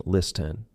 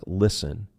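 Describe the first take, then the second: First: LISTEN with the T pronounced, "lis-ten"; sounded T. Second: LISTEN with no T sound, just "lissen"; silent T. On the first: Teacher showing learners what not to say, LISTEN with sounded T. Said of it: "We are not saying". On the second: Teacher showing learners a silent letter, LISTEN with silent T. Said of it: "Silent T". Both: Shown as a demonstration.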